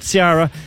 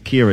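First: The name begins with a non-K sound. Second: The name begins with a K sound. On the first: The speaker calls it wrong. "not Ciara" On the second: The speaker calls it right. "Ciara, it's an Irish name"

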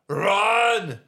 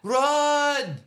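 First: The word is said in an Austrian accent. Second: The word is said in a French accent. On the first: "That's Arnold" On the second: "That's Jean-Claude"

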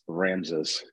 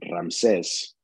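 First: The name is said with an English pronunciation. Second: The name is said with a Spanish pronunciation. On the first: "in English it's Ramses" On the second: "in Spanish it's Ramses"

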